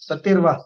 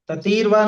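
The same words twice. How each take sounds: First: The middle vowel is kept short. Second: The middle vowel is drawn out long. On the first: The speaker calls it right. "छोटे ही" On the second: The speaker calls it wrong. "ततीरवा नहीं"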